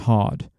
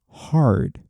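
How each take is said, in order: First: It is said with a British accent. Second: It is said with an American accent. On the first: "in British accent, we would normally pronounce them like this" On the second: "in American English, we pronounce them"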